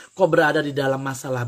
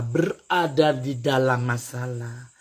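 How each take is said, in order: First: Said in the usual way. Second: Slowed-down repeat of "berada di dalam masalah", each word drawn out; slow emphatic repeat. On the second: Real, not acted. Mama advising Agus, driving the point home slowly.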